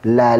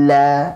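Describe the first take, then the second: First: The vowel is short and even. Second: The vowel is drawn out long. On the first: The speaker calls it right. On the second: The speaker calls it wrong. "ada tarikannya lama nih"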